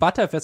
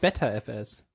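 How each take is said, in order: First: The name begins with 'butter'. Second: The name begins with 'better'. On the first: The speaker calls it right. "ist ja auch ButterFS" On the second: The speaker calls it wrong. "und nicht BetterFS"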